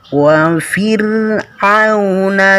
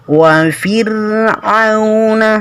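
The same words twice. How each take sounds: No difference in how they are said.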